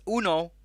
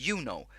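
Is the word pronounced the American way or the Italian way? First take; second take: Italian; American. First: The word is said with an Italian pronunciation. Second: The word is said with an American pronunciation. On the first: The speaker calls it right. "it's Uno, it's not Uno, because it's made in Italy" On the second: The speaker calls it wrong. "they pronounce it like they do in the U S"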